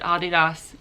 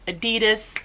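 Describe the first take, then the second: First: It is said the international way. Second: It is said the American way. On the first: This is how the rest of the world says the name. "the rest of the world calls it Adidas" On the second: This is how Americans say the name. "Americans call it Adidas"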